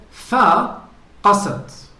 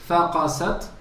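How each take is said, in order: First: "فقست" slow and loud, fa then qasat held together; correct nabra. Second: "فقست" with a rise, as if فقس plus t; wrong reading. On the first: Teacher showing the correct Quran reading, slow "فقست". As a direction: stretch "فقست" slowly with weight. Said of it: "As for the Quran, it said". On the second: Sheikh imitating the student's mistaken "فقست". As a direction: say "فقست" quickly rising, like cracking an egg. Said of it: "The way you recited it". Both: Shown as a demonstration.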